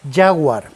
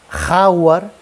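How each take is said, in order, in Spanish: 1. La palabra empieza con un sonido y suave. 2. La palabra empieza con un sonido gutural fuerte. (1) "en todos los idiomas se pronuncia ya" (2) "solo en español decimos ja"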